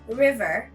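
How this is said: It is said in an American accent.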